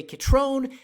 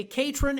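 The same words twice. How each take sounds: First: Catrone said kuh-TRONE, stress on the second syllable, slowly; Catrone pronunciation. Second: Catron said KAT-ron, stress on the first syllable; Catron pronunciation. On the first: Host demonstrating the county name the Spanish way. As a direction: say Catrone with a long -trone ending. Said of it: "some say Catrone". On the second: Host demonstrating the locals' version of the name. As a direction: say Catron with a short -ron ending. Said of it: "some say Catron". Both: Shown as a demonstration.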